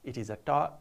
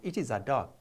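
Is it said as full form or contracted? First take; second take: full form; full form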